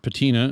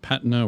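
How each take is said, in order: First: It is pronounced the American way. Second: It is pronounced the non-American way.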